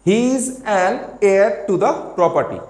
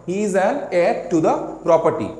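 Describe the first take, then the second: Both takes have the same delivery.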